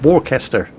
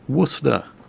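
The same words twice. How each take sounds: First: The name is said fully, following its spelling. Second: The name is said in a short, contracted form. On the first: The speaker calls it wrong. "But it says Worcester" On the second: The speaker calls it right. "I actually know how to properly pronounce the name"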